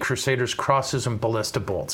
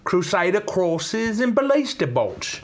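First: It is read in the speaker's normal accent. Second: It is read in a put-on English accent. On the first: It is said seriously. "all kidding aside" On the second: It is said as a joke. "Should I read it with my totally authentic English accent?"

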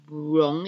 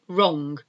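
First: A W sound is heard at the start. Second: No W sound is heard at the start. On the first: The speaker calls it wrong. "You don't say wrong" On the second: The speaker calls it right. "You say wrong, like it doesn't exist, W"

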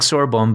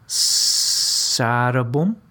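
First: The name is said with an English-like pronunciation. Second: The name is said with a Swedish-like pronunciation. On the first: The speaker calls it wrong. "whom we call Dag Sorbom" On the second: The speaker calls it right. "my Swedish coach said it's Sarabom"

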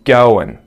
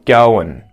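First: The word ends with a reduced n sound. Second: The word ends with a reduced n sound.

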